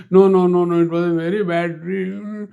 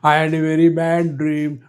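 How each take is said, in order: First: A guru stubbornly refusing comfort; insistent. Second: Said in the usual way. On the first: Acted. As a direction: insist it was a very bad dream. Guru insists on his bad dream.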